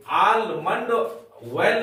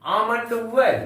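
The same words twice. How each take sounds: First: आलमंड oil with the L sounded, aal-mand; wrong pronunciation. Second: आमंड oil with a silent L, aa-mand; correct pronunciation. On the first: Teacher shows pupils the mispronunciation, with the L sounded. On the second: Teacher models the right way to pupils, L silent. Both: Shown as a demonstration. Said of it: "आलमंड oil नहीं बोलेंगे".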